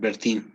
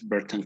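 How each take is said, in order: First: The last syllable sounds like 'tin'. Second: The last syllable sounds like 'tan'. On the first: The speaker calls it wrong. "it's not Bertin as um, some people might have read" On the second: The speaker calls it right. "It's Bertan column"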